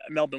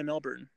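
First: "Melbourne" said as MEL-bun; Melbourne without the r. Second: "Melbourne" said as MEL-bern. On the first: Unsure how the city is said, "Melbourne" tried as MEL-bun. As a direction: drop the r in "Melbourne", reduced second syllable. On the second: Offering listeners one way to say the city, "Melbourne" as MEL-bern. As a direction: sound the r in "Melbourne". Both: Shown as a demonstration. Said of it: "whatever you say it".

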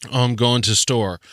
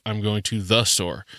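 First: "to store" run together, no article; British phrasing. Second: "the" picked out before "store"; stress on THE. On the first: Podcaster mimicking British article-dropping, "to store" unbroken. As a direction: say "going to store" straight through. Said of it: "they say". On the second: Podcaster contrasting usual wording with British, stressing "the". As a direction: lean on the word "the" in "to the store". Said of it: "instead of". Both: Shown as a demonstration.

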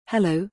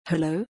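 First: Said in the usual way. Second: Lightly voiced young creature, barely shifted; a hint of an eerie child echo, questioning; young musical voice. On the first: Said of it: "Arthur tried". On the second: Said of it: "A voice repeated, this one sounding young".

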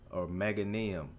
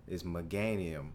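First: Meganium said with a short E, MEG-uh-nee-um; Meganium, stress on MEG; pronunciation demo. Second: Meganium said with a long A, meh-GAY-nee-um; Meganium, second syllable GAY; pronunciation demo. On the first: His own right way, Meganium said MEG-uh-nee-um. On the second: Friend's wrong way, Meganium said meh-GAY-nee-um. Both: Shown as a demonstration. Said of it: "spelled like Meganium".

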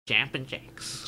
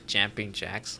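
First: Slow foreign-accented "Jumping Jacks"; drawn-out accented take on the words. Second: Plain American "white dude" accent; unaccented white-guy American reading. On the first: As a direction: say it slowly with an accent. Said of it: "if you say it with an accent". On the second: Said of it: "say it like a white dude". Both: Shown as a demonstration.

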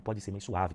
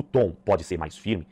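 First: "mais suave" eased off softly; gentle tone. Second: "mais firme" said solidly; firm tone. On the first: Coach demonstrating tone, "mais suave" said gently. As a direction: let "mais suave" relax and soften. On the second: Coach demonstrating tone, "mais firme" said firmly. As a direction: put weight on "mais firme". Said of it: "O tom pode ser mais firme". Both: Shown as a demonstration.

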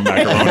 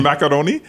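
First: Said in the usual way. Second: "macaroni" with an unintended fancy accent. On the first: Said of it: "I don't know why I put an accent". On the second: Real, not acted. Guest slips while talking about food, "macaroni" in an accent. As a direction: put a bougie accent on "macaroni". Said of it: "put an accent on macaroni".

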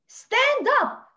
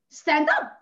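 First: Emphatic command. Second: Said in the usual way. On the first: Real, not acted. Urging women after loss to stand up, forceful. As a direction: stand up, higher and louder, rallying.

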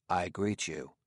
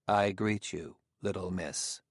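First: Oddly altered tones. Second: Said in the usual way. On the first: A narrator's reading. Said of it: "in tones oddly removed from his usual one". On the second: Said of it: "He paused and then said".

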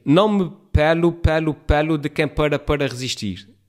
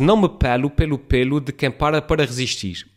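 First: \"pelo pelo pelo\" all said the same, like pêlo, and \"para para\" both said pɐɾɐ; new spelling reading. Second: \"pelo pelo pelo\" said as pélo, pêlo, pelo, and \"para para\" as pára, para, each word given its own vowel; old spelling reading. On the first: Vlogger showing viewers how the new-spelling sentence reads, all words identical. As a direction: flatten every \"pelo\" and \"para\" into identical sounds. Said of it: "Com o novo acordo ortográfico fica".

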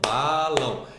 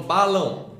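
First: "balão" split slowly into ba and lão; sílabas separadas. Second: Said in the usual way. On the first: Shown as a demonstration. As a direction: stretch and separate both syllables of "balão". ("balão" em duas partes: ba, lão) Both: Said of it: "a separar sílabas".

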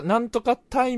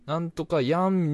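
First: Put-on high, louder old Hakata "タイ" ending; demonstrated traditional Hakata phrase. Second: Higher, drawn-out Fukuoka "やん" ending; demonstrated newer Fukuoka phrase. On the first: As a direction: quote the Hakata "タイ" with emphasis. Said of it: "博多弁的な フレーズがもうあんまり出ないね". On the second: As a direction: stretch out the modern Fukuoka "やん". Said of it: "になってきてんのね". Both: Shown as a demonstration.

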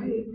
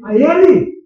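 First: Said in the usual way. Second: "A ele" said louder and higher; loud preacher's repeat of "A ele"; emphatic repeat. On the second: Shown as a demonstration. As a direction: hammer home "A ele".

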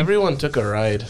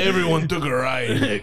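First: Put-on Midwestern wife accent. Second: Put-on Midwestern wife slipping into a Mexican accent, laughing; accidental Mexican accent. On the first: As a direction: have another go at a Midwestern accent. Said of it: "That was Midwest". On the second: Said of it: "I just turned into Mexican".

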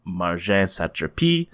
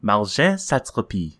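First: Slow, lightly French-accented Marjane Satrapi; French-spiced pronunciation. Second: Marjane Satrapi as an attempt at accuracy; careful pronunciation. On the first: Real, not acted. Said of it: "you put a little Jacques Saint-Georges, uh, spice". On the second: Shown as a demonstration. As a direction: carefully try the name Marjane Satrapi as it should sound. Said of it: "try and be accurate".

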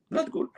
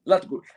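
First: Much higher, soft squeaky no; mock high warning. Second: Said in the usual way. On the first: Advising the brother not to speak, squeaky high. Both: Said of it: "بقول له".

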